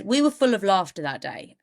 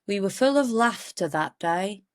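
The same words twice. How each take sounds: First: Said in the usual way. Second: Badly faked Geordie accent; poor Geordie impression; attempted Geordie accent. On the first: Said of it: "Anyway, she said". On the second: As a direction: have a failed go at Geordie. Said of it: "That's not a Geordie accent".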